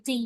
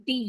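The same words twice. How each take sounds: First: "ডি" with an aspirated dh-like onset; D and H together. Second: Said in the usual way. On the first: Shown as a demonstration. Teacher contrasts it with the letter name, "ডি" said with D plus H. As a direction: blend a D and an H at the start of "ডি". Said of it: "ডি আর এইচ একসাথে উচ্চারণ হয়". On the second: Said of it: "letter সাউন্ডে এটাকে পড়ি ডি".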